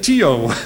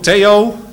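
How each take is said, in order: First: The name is said with an American accent. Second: The name is said with a Dutch accent. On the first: This is how people abroad said the name. The speaker calls it wrong. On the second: This is the plain, native way to say the name. The speaker calls it right. "zeg toch gewoon Theo"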